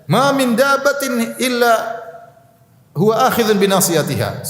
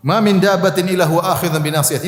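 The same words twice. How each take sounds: First: Proclaiming the verse high and slow, defiant; Prophet Hud defiant. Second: Said in the usual way. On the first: Acted. Hud defying the gathered crowd, slow and high proclamation. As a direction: declare it to the crowd as Hud would, unafraid. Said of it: "Nabi Hud berkata kepada mereka". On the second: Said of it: "maksud dari firman Allah".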